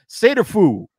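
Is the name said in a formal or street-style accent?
street-style. The name is said in a casual street accent. The speaker calls it right. "the way we say it on the street"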